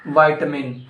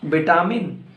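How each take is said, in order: First: "vitamin" as VY-tuh-min; corrected VITAMIN. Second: "Vitamin" as bi-TAA-min; wrong VITAMIN. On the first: Teacher correcting learners, "vitamin" said as VY-tuh-min. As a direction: say "vitamin" starting like "vie". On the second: Teacher quizzing learners on "Vitamin", said as bi-TAA-min. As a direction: say "Vitamin" with a long middle TAA. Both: Shown as a demonstration. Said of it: "No, it's not vitamin".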